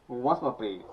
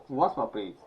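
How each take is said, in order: The two takes are said the same way.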